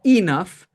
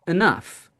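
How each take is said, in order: First: ENOUGH with a full ee at the start; wrong first vowel. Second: ENOUGH with a weak uh at the start, stress on NOUGH; reduced first vowel. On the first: Teacher showing how not to say enough, full first vowel. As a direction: overpronounce the first syllable of ENOUGH as EE. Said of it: "It's not like enough". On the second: Teacher correcting enough, unstressed first syllable reduced. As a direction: say ENOUGH as uh-NUFF. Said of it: "it's enough". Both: Shown as a demonstration.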